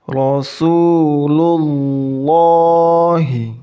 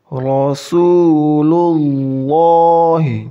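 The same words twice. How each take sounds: No difference in how they are said.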